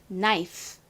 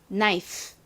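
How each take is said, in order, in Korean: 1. 마지막 소리가 짧고 약해요. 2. 마지막 소리가 짧고 약해요.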